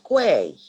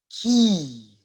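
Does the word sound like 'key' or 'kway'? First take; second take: kway; key. First: The word sounds like 'kway'. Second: The word sounds like 'key'. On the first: The speaker calls it wrong. "No, wrong. It's not quay" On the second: The speaker calls it right. "It's key or K"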